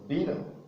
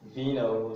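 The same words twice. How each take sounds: First: The word begins with a B sound. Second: The word begins with a V sound. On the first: This is the safer way to say it. "you'll be on the safer side if you pronounce the V as B" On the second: Some native speakers say it this way. "sometimes I hear vino, some other native speakers"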